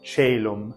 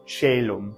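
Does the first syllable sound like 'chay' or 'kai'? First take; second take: chay; chay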